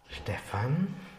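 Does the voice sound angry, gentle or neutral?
gentle. It is said in a gentle tone.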